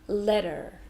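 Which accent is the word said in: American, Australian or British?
American. The T sounds like D and R is heard. "they also changed the T to a D sound, but they do pronounce the R"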